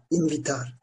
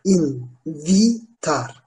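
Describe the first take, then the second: First: Said in the usual way. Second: "Invitar" very slowly, as in-vi-tar with pauses; syllable by syllable. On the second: Shown as a demonstration. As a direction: sound out "Invitar" exactly as written. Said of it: "Yazıldığı gibi okunuyor". ("Invitar" kelimesini ağır ağır hecele)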